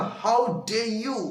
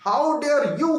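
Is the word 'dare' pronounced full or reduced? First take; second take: reduced; full. First: The word 'dare' is shortened and run together. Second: Every word is pronounced fully and distinctly. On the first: The speaker calls it right. "पूरा नहीं बोलेंगे तो how डे you ऐसा बोलते हैं" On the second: The speaker calls it wrong. "How डेयर you कहेंगे"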